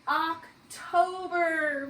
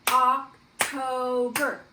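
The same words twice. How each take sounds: First: October drawn out slowly and clearly; stretched word. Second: October split into Oc-to-ber, slow and loud, one clap per syllable; clapping syllables. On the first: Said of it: "we are in the month of". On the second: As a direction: beat out each syllable of October. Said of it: "Let's clap out. How many syllables". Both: Shown as a demonstration.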